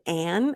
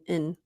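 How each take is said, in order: First: The word is said fully with an open vowel. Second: The word is said small with a reduced vowel. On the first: The speaker calls it wrong. "it's not even and" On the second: The speaker calls it right. "It's really small"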